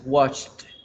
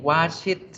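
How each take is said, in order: First: The ending joins the word in one syllable. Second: The ending is said as an extra syllable. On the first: The speaker calls it right. "Nada, es washed" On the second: The speaker calls it wrong. "No vamos a decir ni watch it, ni wash it"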